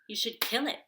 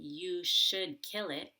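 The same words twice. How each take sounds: First: "You should" is reduced and rushed before "kill." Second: "You should" is said fully and carefully. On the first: "I just say" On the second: "Instead of saying"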